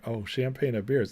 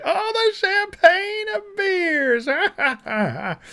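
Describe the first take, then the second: First: Mock Kamala, laughing. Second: Much higher, very slow, wailing mockery; hammed-up mock Kamala. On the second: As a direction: stretch "champagne" into a fake sob. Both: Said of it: "She's like".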